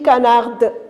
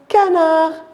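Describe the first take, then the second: First: The final d sound is pronounced. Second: The final d sound is silent. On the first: The speaker calls it wrong. "Est-ce que j'ai dit canarde?" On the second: The speaker calls it right. "j'ai dit canard"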